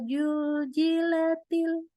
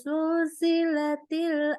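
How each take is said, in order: First: The word begins with a j sound. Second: The word begins with a hissing s sound. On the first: "Tidak boleh dibaca" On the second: "jadi ada ada sifat hamsnya"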